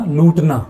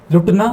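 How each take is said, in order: First: "लूटना" with a long oo; long-vowel variant. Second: "लुटना" with a short u; short-vowel variant. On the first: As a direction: say "लूटना" stretching the first vowel. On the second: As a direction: say "लुटना" keeping the first vowel brief. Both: Shown as a demonstration. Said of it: "दोनों".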